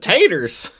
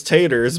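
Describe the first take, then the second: First: "taters" raised high in a mock Southern twang; Southern accent. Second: Said in the usual way. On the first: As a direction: imitate his Southern way of saying "taters", amused. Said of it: "because of the way he said". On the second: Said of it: "His nickname was Taters".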